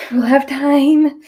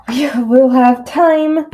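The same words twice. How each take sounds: First: High, loud and slow, repeated; goofy reassurance. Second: High, loud and slow, drawn-out; sing-song it to calm yourself down; goofy reassurance. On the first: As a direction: say it again, goofy and drawn out. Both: Pretend. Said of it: "I like to act goofy like that to calm myself down".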